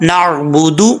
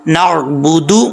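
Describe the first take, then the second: Both takes have the same delivery.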